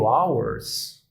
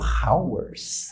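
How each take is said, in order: First: The word starts with a vowel sound. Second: The word starts with an h sound. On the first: The speaker calls it right. "Se eu leio hours" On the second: The speaker calls it wrong. "e não leio hours"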